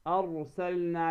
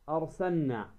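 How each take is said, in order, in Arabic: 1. صوت اللام في الوسط يُنطق. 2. صوت اللام في الوسط يُحذف.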